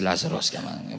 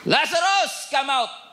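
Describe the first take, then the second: First: It is said quietly, without shouting. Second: It is shouted loudly.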